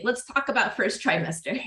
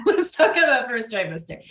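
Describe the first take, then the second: First: Said in the usual way. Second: Laugh, then say it louder as a proper announcement; louder laughing retake; laughing redo. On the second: Shown as a demonstration. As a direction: restart the line with a laugh and more punch.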